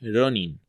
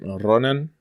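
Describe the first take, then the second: First: The last syllable is pronounced with an 'i' vowel. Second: The last syllable is pronounced with an 'a' vowel. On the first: This is the original form of the word. The speaker calls it right. "en realidad la palabra es Ronin" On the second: This is how English speakers say it. The speaker calls it wrong. "los gringos siempre dicen Ronan"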